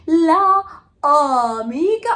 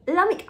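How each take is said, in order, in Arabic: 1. الحروف المتحركة بتتنطق منفصلة: la وبعدين amica. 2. الحروف المتحركة بتندمج في كلمة واحدة: lamica. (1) "هيطلع لك الشلل في بقك مش هتعرف تكمل الجمله" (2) "لاميكا على طول خلاص"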